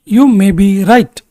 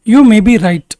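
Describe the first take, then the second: First: Very slow, each word spaced out; slow, clear repetition. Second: Said in the usual way. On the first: Shown as a demonstration. Teacher repeating for students, slow and deliberate. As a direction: say it again slowly for learners. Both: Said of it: "teacher models sentence twice".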